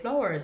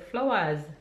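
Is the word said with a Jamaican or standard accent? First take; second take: standard; Jamaican. First: It is said with a standard English pronunciation. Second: It is said with a Jamaican English pronunciation. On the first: "we don't say flowers" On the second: "we say flowers"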